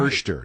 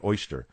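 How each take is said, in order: First: The first vowel sounds like 'er'. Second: The first vowel sounds like 'oy'. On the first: "O Is are usually pronounced like R's" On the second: "not oyster"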